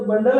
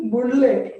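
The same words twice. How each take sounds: First: Said in the usual way. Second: "बुंडले" misread letter by letter as bun-dle-ay; teasing wrong guess "बुंडले", with oo and a voiced ending; mock misreading. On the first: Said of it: "ये तो बंडल है sir". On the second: Shown as a demonstration. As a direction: misread "बुंडले" as spelt, final e sounded. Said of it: "इसे कैसे पढ़ रहे हो? ... नहीं ना".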